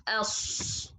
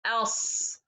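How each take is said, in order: First: "else" with the s wrongly made by the lips; lip-made ص mistake. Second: "Else" with a heavy s, tongue raised at the back. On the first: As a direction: demonstrate "else" with lips pushing a long hushed s. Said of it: "not in the lips". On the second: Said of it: "it depends in the tongue from the back". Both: Shown as a demonstration.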